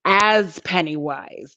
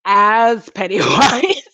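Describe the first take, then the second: First: Said in the usual way. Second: Slow, louder "Pennywise" with a rising end; slow, teasing emphasis; drawn-out Pennywise. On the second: Shown as a demonstration. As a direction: savour the name.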